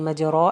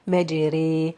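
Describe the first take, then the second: First: Heavy r, with a clear open a vowel. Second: Light r, vowel between a and i. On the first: The speaker calls it wrong. "I'm not gonna say مجرى" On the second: The speaker calls it right. "It's gonna be pronounced as light, saying مجري"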